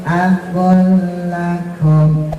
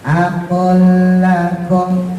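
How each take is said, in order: Both takes have the same delivery.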